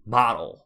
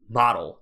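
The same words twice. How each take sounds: First: It is said with a native English accent. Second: It is said with a native English accent.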